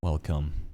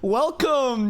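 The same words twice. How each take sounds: First: It is said flatly, with a sigh. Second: It is said with lively energy.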